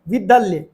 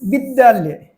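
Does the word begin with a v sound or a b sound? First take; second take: v sound; b sound. First: The word begins with a v sound. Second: The word begins with a b sound. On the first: The speaker calls it right. "वी बोलना था" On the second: The speaker calls it wrong. "बी बोल रहा है"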